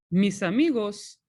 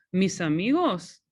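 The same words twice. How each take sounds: First: Mis amigos leading into the answer, falling on amigos; answer tune. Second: Mis amigos asked with a lift on amigos; question tune. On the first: Teacher modelling the spoken answer for students. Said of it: "no hablan español". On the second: Teacher showing students how to ask the question. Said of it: "Remember, it's a question". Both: Shown as a demonstration.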